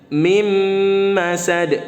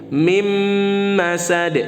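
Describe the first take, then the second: The two takes are said the same way.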